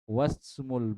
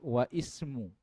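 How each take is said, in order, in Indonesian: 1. Wa langsung menyambung ke smu, tidak ada bunyi i. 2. Setelah wa ada bunyi i yang terpisah. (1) "Tetapi lihat setelahnya" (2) "Bukan lagi wa ismu"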